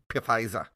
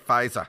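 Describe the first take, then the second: First: The word starts with a P sound. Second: The word starts with an F sound. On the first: The speaker calls it right. "I say P-Pfizer" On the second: The speaker calls it wrong. "I refuse to say Pfizer"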